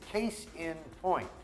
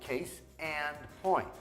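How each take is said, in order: First: The middle word is pronounced 'in'. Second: The middle word is pronounced 'and'. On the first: The speaker calls it right. "The other expression is case in point" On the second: The speaker calls it wrong. "que muitos americanos falam como"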